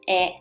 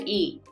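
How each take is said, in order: First: The vowel is said the Japanese way. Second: The vowel is said the English way. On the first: The speaker calls it right. "This is E" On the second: The speaker calls it wrong. "It's not E"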